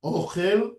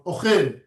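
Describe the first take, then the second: First: "ochel" stressed on the first syllable, O-chel; mil'el stress. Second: "ochel" stressed on the last syllable, o-CHEL; mil'ra stress. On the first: Teacher asking which one to emphasize, "ochel" with first-syllable stress. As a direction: lean long on the O of "ochel". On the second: Teacher asking which one to emphasize, "ochel" with final stress. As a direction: land on the end of "ochel". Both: Shown as a demonstration. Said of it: "you need to emphasize".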